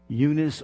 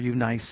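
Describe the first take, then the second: First: The name is pronounced the usual English way. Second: The name is pronounced the Greek way.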